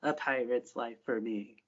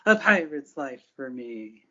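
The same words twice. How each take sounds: First: Slow, solemn pirate oath; drawn out and grave; slow solemn vow. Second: Slow pirate oath, a bit louder; slow raised vow. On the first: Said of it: "repeats the same phrase". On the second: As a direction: draw it out like a rallying cry. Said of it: "raises her staff in the air". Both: Acted.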